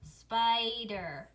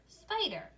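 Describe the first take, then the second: First: "spider" stretched into spi and der; teacher's drawn-out, segmented "spider"; syllable by syllable. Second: Said in the usual way. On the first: Shown as a demonstration. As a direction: say "spider" slowly in two even syllables. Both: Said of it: "if I put that all together".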